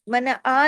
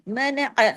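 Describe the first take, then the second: First: "आ" stretched into a plain long vowel; "मन आ" with the last sound read like alif; open, lengthened "आ" without the throat catch; wrong alif-like vowel. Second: "अ" short, from the throat as Arabic ain; "मन अ" with a short throat sound at the end; correct throaty ain. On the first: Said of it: "अलिफ की तरह नहीं". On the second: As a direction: squeeze "अ" in the throat, don't lengthen it. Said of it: "आइन को ऐन की तरह पढ़ना है". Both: Shown as a demonstration.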